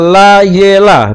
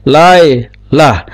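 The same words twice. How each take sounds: First: La, ye, la run on in three syllables; la ye la, the middle syllable voiced; wrong voiced sheva. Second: Lai, lah as two separate syllables; lai-lah with no vowel after the y; silent sheva. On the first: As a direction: say la-ye-la with a sounded e after the y. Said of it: "sewanya ini sewa bersuara". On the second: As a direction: say lai, short break, then lah. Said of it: "Sewanya tidak dibaca". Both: Shown as a demonstration.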